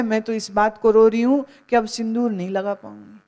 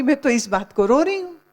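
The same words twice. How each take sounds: First: Lightly voiced widow, fast and brisk; a hint of a vain widow, quick; mock widow lament. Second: Higher-pitched, fast mock wail; hammed-up whiny widow; mock whining widow. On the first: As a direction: rattle off her real grief, half-mocking. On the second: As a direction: whine it like a vain widow. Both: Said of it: "खैराती की माँ ने मुंह ऊपर किया और कहते".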